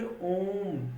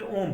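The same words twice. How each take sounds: First: The vowel is drawn out about three times longer. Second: The vowel is said short and clipped. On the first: The speaker calls it right. "हरस्व स्वर की अपेक्षा आपको तीन गुना समय लगता है" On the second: The speaker calls it wrong. "ऐसे नहीं बोल सकते ओम, तो ये आपका गलत है"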